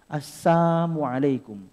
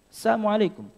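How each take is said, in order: First: It is said slowly, the missing l clearly audible. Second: It is said quickly, blurring the missing l sound. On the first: "dengan menghilangkan yakni huruf lamnya" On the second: "kalau diucapkan dengan cepat itu seperti seperti ada"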